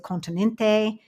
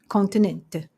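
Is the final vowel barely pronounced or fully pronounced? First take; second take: fully; barely. First: The final e is fully pronounced. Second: The final e is barely pronounced. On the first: This is the Spanish pronunciation. "I would say Continente in Spanish" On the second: This is how local Portuguese speakers say it. "they don't pronounce that last e, or maybe they just kind of"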